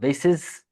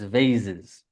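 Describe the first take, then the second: First: The middle consonant is a hissing S sound. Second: The middle consonant is a buzzing Z sound. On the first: The speaker calls it wrong. "not vases" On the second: The speaker calls it right. "it's vases. ... so that's a Z"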